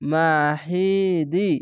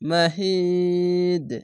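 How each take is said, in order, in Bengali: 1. শব্দটি শেষে 'ই' স্বরবর্ণ দিয়ে শেষ হয়। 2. শব্দটি শেষে 'দ' ব্যঞ্জনবর্ণে থামে। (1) "এখানে মাহিদি আছে কিন্তু এখানে ত একটি আছে, থামতে হবে" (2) "দি না বলে মাহিদ মাহিদ এই দকে ধরে নেবেন"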